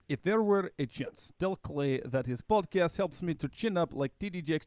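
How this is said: It is read in an exaggerated Russian accent. The speaker calls it right. "try to read your stereotypical Russian accent"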